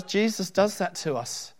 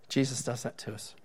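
First: Slow, weighty, leaning hard on does; emphatic. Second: Quiet. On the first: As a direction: preach it slowly with weight on does. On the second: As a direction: drop the voice and say it softly. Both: Acted. Preacher repeats line for effect.

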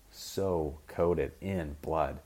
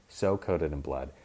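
First: So coated in blood, every word stretched slowly; dragged-out emphasis. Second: Said in the usual way. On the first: Shown as a demonstration. Describing bloodied Kong, slowly stretching so coated in blood. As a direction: drag out so coated in blood for effect. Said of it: "said twice, first stretched". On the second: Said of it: "repeat at plainer pace".

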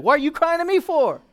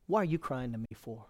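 First: High, loud exasperated question as God; indignant outburst, pitched way up; shouted rebuke. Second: Understated divine reproach; restrained rebuke. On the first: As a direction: yell it out for all to hear. Same question, God yelling before congregation. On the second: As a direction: ask it quietly, holding the rebuke back. God's question, first taken quietly. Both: Acted.

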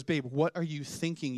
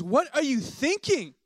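First: Understated imitation of a scolding wife; light, restrained mock telling-off; retold reprimand. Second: High, loud, drawn-out mock outrage; hammed-up exasperated telling-off; exasperated wife scolding. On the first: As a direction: mildly reprimand your husband, in an everyday pitch. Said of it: "my wife then reprimands me". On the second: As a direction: scold him loudly, pitch soaring in disbelief. Wife scolds him after overeating.

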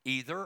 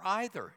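First: "either" starting with a long EE; EE-ther for "either". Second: "either" starting with an EYE sound; EYE-ther for "either". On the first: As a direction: say "either" to begin like "eat". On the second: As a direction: say "either" to begin like "ice". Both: Shown as a demonstration. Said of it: "fight over how to pronounce a word".

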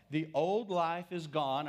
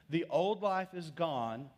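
First: Slow, weighty reading; slow scripture reading. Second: Put-on "old" lifted, slow; stress on old. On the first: Preacher reading scripture to the congregation, slow and weighty. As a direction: read it slowly, each word weighed. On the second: Preacher repeats scripture, stressing "old" slowly. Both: Shown as a demonstration. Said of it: "I'm reading the scripture".

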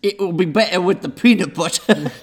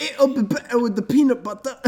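First: Put-on British accent. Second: High, hammed-up British accent. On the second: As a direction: put on a posh British accent. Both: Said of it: "Brilliant British accents".

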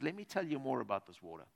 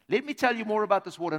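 First: Soft quoted Jesus. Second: Quicker repeat. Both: Acted. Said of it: "he says".

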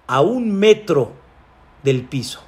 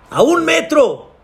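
First: Said in the usual way. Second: "A un metro" cried high and emphatic; emphatic exclamation. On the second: A narrator's reading. Preacher repeats the story's punchline, "A un metro" exclaimed high.

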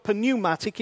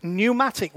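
First: "pneumatic" with the P sounded, as p-neumatic; "pneumatic" starting with a clear P, the wrong way; P pronounced. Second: "pneumatic" said as new-matic, no P; "pneumatic" the correct English way, P silent. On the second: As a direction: drop the P in "pneumatic". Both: Shown as a demonstration. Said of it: "The P is silent".

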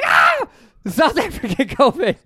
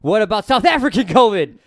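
First: Much higher, louder mock scream of alarm; mock panicked shout. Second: Higher, louder question broken by laughter; laughing question. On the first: Mocking panic over a new variant, hammed-up shout. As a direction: yell it like a horror reveal. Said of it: "And you're like". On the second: Retold or imitated. Mocking the next covid scare, asked through laughter. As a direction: toss the question out while laughing. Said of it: "And they're like".

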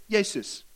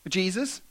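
First: "Jesus" said Greek-style as YAY-sus, y sound at the start; Greek pronunciation. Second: Said in the usual way. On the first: Shown as a demonstration. Preacher showing the name's Greek origin, Greek pronunciation. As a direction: say "Jesus" like Yay-soos, not Jee-zus. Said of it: "From the Greek word". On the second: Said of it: "English word".

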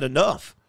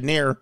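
First: Said in the usual way. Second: "in there" run together as a slurred form of "enough"; misread pronunciation. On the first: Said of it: "It didn't say it in there". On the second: Shown as a demonstration. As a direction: swap the "-uff" of enough for an "-air" ending, "in there". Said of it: "It said enough".

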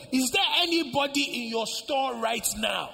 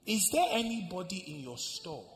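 First: "Is there anybody in your store right now" pushed high and loud; insistent repeated question. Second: Said in the usual way. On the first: Acted. Niece insists, repeating her question.

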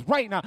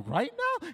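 First: Loud, insistent order; acted no-argument insistence; firm command. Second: High, disbelieving question; acted disbelief, voice shooting up; incredulous question. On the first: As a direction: state it as a final command. God repeats the order firmly. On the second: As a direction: question the order in alarm. Balks at God's order.

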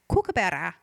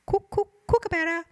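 First: Said in the usual way. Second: High, hooting kookaburra call on "Cook, cook, kookaburra". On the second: Retold or imitated. Host mimics the kookaburra call for Chris Pine, high and hooting. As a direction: chant "Cook, cook, kookaburra" like the bird laughing.

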